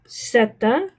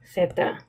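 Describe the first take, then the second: First: The word begins with an s sound. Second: The word begins with a th sound. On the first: This is the Latin American way. "If you're from Latin America, you would say Zeta phonetically" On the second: This is the way in most of Spain. "If you're from Spain, most parts of Spain, you would say Theta with a T H"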